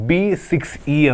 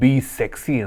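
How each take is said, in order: First: The end is read as 'six' then 'e'. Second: The end is read as one word, 'sexy'. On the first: "ಬಿ ಸಿಕ್ಸ್ ಇ ಅಂತ" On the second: "ಸೆಕ್ಸಿ ಅಂತಲೂ pronounce ಮಾಡ್ಬೋದು"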